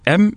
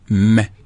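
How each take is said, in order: First: The letter is said by its full name. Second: Only the letter's short sound is said. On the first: "c'est la lettre M" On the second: "mais les sons"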